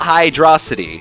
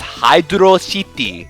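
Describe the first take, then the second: First: It is blended into one word, like velocity. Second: Hydro and City are said as separate words. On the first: The speaker calls it wrong. "not Hydrocity" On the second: The speaker calls it right. "They separate the Hydro and City"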